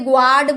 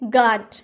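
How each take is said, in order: First: The word begins with a 'gw' sound. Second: The word begins with a plain 'g' sound. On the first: The speaker calls it wrong. "अगर आपने बोला तो आपने गलत बोला है" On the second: The speaker calls it right. "इसलिए इसका हम प्रोनाउंस गार्ड बोलते हैं"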